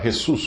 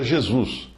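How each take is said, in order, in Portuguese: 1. O primeiro som é um raspado áspero e gutural. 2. Começa com um zh suave e termina em s. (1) "um espanhol que lê uh, Jesus, fazendo soar Jesus como se fosse com R" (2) "um paulista que lê a palavra Jesus e pronuncia Jesus"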